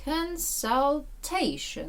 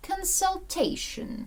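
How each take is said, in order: First: Consultation broken into slow syllables, CON-SUL-TA-tion; very slow, high Consultation, pausing between syllables; syllable-by-syllable stress demo. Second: Consultation, slow and higher, stressed on TA; stress shifted to TA. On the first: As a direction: separate each syllable of Consultation, landing on TA. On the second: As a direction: say consultation slowly as one word, leaning on TA. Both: Shown as a demonstration. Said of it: "Наголос переноситься".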